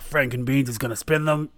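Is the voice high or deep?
deep. The voice is deep and manly.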